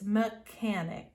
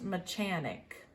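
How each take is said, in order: First: The middle consonant sounds like a 'k'. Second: The middle consonant sounds like 'ch' in church. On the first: The speaker calls it right. "the C H is pronounced like a K" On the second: The speaker calls it wrong. "it is not pronounced mechanic"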